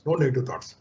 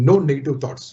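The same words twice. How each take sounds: First: "no negative thoughts" dropped to a soft repeat; softer echo. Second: Said in the usual way. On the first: Shown as a demonstration. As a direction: say "no" again, much softer. (మెల్లగా మళ్ళీ "no negative thoughts")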